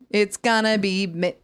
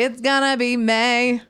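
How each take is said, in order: First: The last word has an 'ee' vowel. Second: The last word has an 'ay' vowel. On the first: The speaker calls it wrong. "You don't say" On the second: The speaker calls it right. "You'd say, ... you change the vowels a lot of times"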